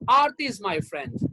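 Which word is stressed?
Aarti. The word Aarti carries the stress. This particular person, not others, is the friend. "That means Aarti is my friend. Geeta, Sunita, they are not my friends"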